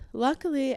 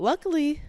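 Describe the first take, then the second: First: Higher repeat. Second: Said in the usual way. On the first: Shown as a demonstration. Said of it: "but luckily".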